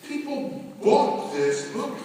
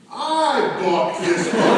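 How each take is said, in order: First: Said in the usual way. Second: "I" stressed, slow and louder with a laugh. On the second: Real, not acted. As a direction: land hard on "I", slowly. Building list about the book.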